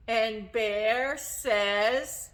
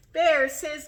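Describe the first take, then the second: First: Put-on drawn-out, slow "And Bear says" to prompt the kids; slow cue. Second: Said in the usual way. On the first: Shown as a demonstration. Storyteller prompts children to join the refrain, slow. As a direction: stretch it out and leave the gap. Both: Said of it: "Don't forget your job".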